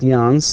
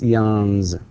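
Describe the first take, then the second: First: The word ends with a voiceless s sound. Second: The word ends with a voiced z sound. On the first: The speaker calls it wrong. "It's not yawns" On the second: The speaker calls it right. "it's yawns"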